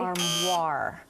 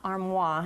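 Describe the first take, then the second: First: The final R sound is clearly pronounced. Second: The final R sound is dropped. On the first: The speaker calls it right. "You do pronounce the R" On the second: The speaker calls it wrong. "it's not armoire"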